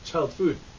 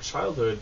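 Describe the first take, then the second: First: The second part begins with an F sound. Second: The second part begins with an H sound. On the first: The speaker calls it wrong. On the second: The speaker calls it right.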